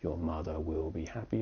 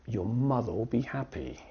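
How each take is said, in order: First: The word will is said fully and separately. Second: The word will is shortened and joined to mother. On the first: The speaker calls it wrong. "it's not" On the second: The speaker calls it right. "but we pronounce"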